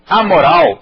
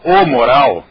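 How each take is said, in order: First: "A" stressed, a bit louder; stress on the article. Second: "o" stressed, a bit louder; stress on the article. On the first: Teacher contrasts gender: "A moral" with the article punched. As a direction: hit "A" before "moral". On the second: Teacher contrasts gender: "o moral" with the article punched. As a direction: hit "o" before "moral". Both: Shown as a demonstration. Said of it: "completamente contrário".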